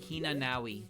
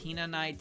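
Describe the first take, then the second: First: A w sound comes before the final i. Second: No w sound comes before the final i. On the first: The speaker calls it wrong. "So early on, I called Tenchi Hinanawi" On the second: The speaker calls it right. "Her name is Hinanai Tenchi"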